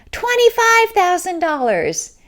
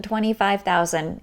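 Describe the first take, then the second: First: High, loud, triumphant outbid; imitating a bold bid. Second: Said in the usual way. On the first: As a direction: stand up and top her bid. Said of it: "a man stands up and says". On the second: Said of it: "the whole room just went crazy".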